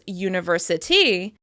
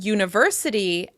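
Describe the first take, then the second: First: The stress falls on the last syllable. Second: The stress falls before the last syllable. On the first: The speaker calls it wrong. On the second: The speaker calls it right.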